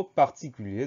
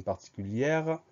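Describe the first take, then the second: First: "particulier" ending on a closed é, no R; final R silent. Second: "particulière" ending in an open è plus audible R; final R sounded. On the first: Teacher showing the masculine form, final R of "particulier" silent. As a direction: drop the written R at the end of "particulier". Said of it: "ce R qui est muet dans le mot". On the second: Teacher showing the feminine form, final R of "particulière" sounded. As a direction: let the R ring at the end of "particulière". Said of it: "on entend ce R qui est muet". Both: Shown as a demonstration.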